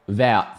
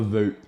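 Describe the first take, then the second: First: The name begins with a V sound. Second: The name begins with a W sound. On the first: The speaker calls it right. "Vout's the correct pronunciation" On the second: The speaker calls it wrong. "I need to stop saying Vout"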